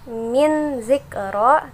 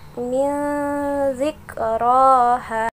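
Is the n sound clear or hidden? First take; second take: clear; hidden. First: The n sound is pronounced clearly. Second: The n sound is hidden and nasalized. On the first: The speaker calls it wrong. "tidak boleh" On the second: The speaker calls it right.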